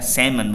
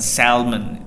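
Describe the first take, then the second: First: The L sound is silent. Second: The L sound is pronounced. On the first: The speaker calls it right. "L-nya nggak ada ya" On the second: The speaker calls it wrong. "bukan salmon"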